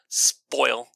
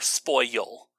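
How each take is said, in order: First: The word is said as one syllable. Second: The word is said as two syllables. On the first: "you can either pronounce it as one like spoil" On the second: "or spoil"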